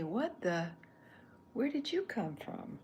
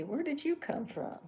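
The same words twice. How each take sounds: First: High, loud startled take; what the, then a high loud where did you come from; surprised Chuck. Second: High, loud surprised voicing; startled cartoon character question; Chuck's line. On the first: Pretend. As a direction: try the line as a startled double take. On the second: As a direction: test the character's reaction out loud. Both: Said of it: "He could say".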